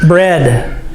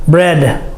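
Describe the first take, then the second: No difference in how they are said.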